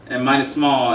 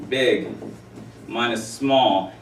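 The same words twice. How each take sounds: First: Said in the usual way. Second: Spaced out, slow; slow emphatic. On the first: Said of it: "take big guy". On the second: Shown as a demonstration. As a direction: stretch each word. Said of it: "big minus small is a range".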